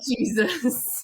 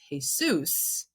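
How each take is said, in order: First: The name is said with an English pronunciation. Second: The name is said with a Spanish pronunciation. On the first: This is the religious figure, not the classmate. "not Jesus" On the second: This is the classmate's actual name. "another student in my class whose name is Jesus"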